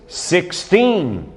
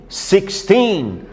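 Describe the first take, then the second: The two takes are said the same way.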